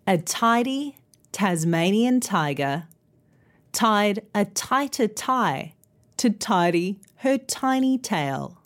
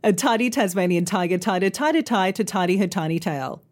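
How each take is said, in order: First: Careful, phrase-by-phrase tongue twister with pauses; slow tongue twister. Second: Rattled off quickly in one run; fast tongue twister. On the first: Teacher modelling a tongue twister for learners, slow and careful. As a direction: take it slowly so learners can follow. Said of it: "let's try that tongue twister". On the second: Teacher showing how speed makes it harder, fast. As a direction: race through the tongue twister without pausing. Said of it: "harder the faster you say them". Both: Shown as a demonstration.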